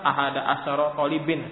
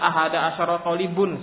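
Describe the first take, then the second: First: The last word ends in -in. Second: The last word ends in -un. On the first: "salah kalau antum sebutkan"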